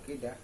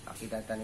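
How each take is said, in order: First: The word ends shortened, in -ah. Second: The word ends with the full -atan ending.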